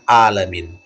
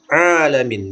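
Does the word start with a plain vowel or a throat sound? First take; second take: plain vowel; throat sound. First: It begins with a plain open vowel. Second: It begins with a tight throat sound. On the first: The speaker calls it wrong. "bukan huruf alif" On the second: The speaker calls it right. "dia memakai huruf ain"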